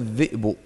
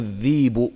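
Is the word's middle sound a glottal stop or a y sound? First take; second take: glottal stop; y sound. First: The middle sound is a glottal stop. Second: The middle sound is a y sound.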